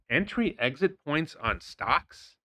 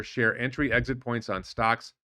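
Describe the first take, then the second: First: Slow, questioning repeat with a rising end; sceptical echo. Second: Said in the usual way. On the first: Real, not acted. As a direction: draw it out as a doubting question. Repeats post's words as sceptical question.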